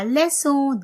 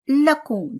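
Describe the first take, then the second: First: The middle consonant is a soft s sound. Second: The middle consonant is a hard k sound. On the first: The speaker calls it right. "This is lesson in English" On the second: The speaker calls it wrong. "That will be wrong. The pronunciation will be wrong"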